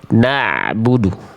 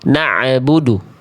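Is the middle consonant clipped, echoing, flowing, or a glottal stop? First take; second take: flowing; echoing. First: The middle consonant flows on briefly without stopping. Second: The middle consonant carries an added echoing bounce. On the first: The speaker calls it right. "Mengalir sedikit suaranya tanpa terhenti" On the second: The speaker calls it wrong. "eh tapi malah nambahin bunyi"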